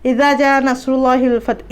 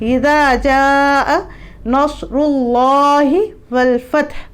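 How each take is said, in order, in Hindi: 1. 'ja' में स्वर छोटा काटा गया है, जल्दी पढ़ा गया। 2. 'ja' में स्वर लंबा खींचा गया है। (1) "जल्दी पढ़ने के चक्कर में" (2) "ज़ा को जहाँ पे खींचना था"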